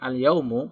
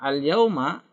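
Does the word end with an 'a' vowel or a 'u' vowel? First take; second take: u vowel; a vowel. First: The word ends with a 'u' vowel. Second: The word ends with an 'a' vowel. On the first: The speaker calls it wrong. "bukan al-yaumu" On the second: The speaker calls it right. "ini dibaca fathah"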